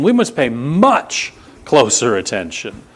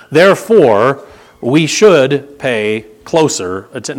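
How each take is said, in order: First: Must punched in we must pay much closer attention; firm insistence on must; stress on must. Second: Said in the usual way. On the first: Shown as a demonstration. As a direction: hit the word must hard. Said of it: "There's an emphasis". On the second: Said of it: "no, no, he says".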